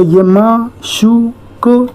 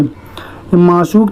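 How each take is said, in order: First: माशूक stretched slowly, syllable by syllable, higher; drawn-out माशूक. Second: Said in the usual way. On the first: Shown as a demonstration. Teacher showing students how to read, stretching माशूक slowly. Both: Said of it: "माशूक कैसे लिखेंगे".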